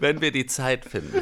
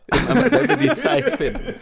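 First: Said in the usual way. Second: High, laughing put-on voice; squeaky mock voice. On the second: Mocking reply to outsider question.

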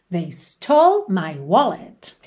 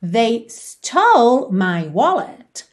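First: Slow repeat, lower; repeat model. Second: Very slow, rising on stole; slow model phrase. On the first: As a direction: repeat at learning pace. (repetição devagar, mais grave) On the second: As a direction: model it slowly for learners. (frase modelo bem devagar, subindo em stole) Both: Shown as a demonstration. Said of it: "How would you say that in English?".

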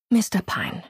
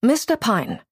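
First: Milder, gentler address; conciliatory, no edge. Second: Higher, brisk call of his name; brisk address. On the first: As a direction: soften into his name. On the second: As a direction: address him sharply, no greeting. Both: A narrator's reading. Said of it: "sagte sie in versöhnlicherem Ton".

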